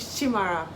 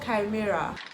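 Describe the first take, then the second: First: It is said like an Igbo personal name. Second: It is said like the English word chimera. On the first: This is how the title was first assumed to sound. The speaker calls it wrong. "that was what I thought it was going to, it was pronounced" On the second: This is how the title is actually pronounced. The speaker calls it right. "It is pronounced Chimera"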